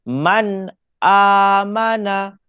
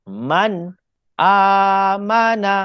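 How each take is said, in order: No difference in how they are said.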